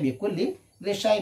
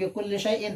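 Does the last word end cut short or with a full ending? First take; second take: cut short; full ending. First: The last word stops short without its ending. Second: The last word ends with a glottal stop and -in. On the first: This is how the verse reads it for the meter. "tapi dibaca bi kulli syai'" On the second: This is the regular grammatical form. "harusnya bi kulli syai'in"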